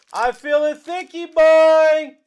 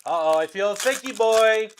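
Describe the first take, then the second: First: Loud, higher, slow sing-song; loud, slow teasing chant for a big card; drawn-out hype. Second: Said in the usual way. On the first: Acted. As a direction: stretch it out to hype the chat.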